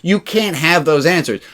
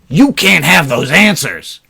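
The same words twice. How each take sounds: First: It is said in a gentle, accepting tone. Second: It is said in a harsh, dismissive tone. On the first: The answers cannot be had yet, and that is acceptable. The speaker calls it right. "He's saying" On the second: Too bad, you simply do not get them. The speaker calls it wrong. "He's not saying it like that. He's not saying tough shit, kid"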